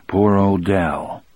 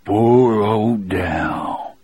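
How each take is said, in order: First: Said in the usual way. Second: Very slow, husky lament; low, hoarse voice. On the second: A narrator's reading. Weeping prisoner repeating his grief for Dell, slow hoarse voice. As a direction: draw each word out hoarsely, mourning him. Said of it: "he said in a low, hoarse voice".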